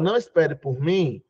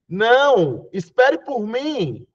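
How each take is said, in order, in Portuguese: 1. Continua sem pausa depois de 'não'. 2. Há uma pausa logo depois de 'não'. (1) "Eu estou dizendo para você ir embora" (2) "quando eu coloco uma vírgula, eu digo assim"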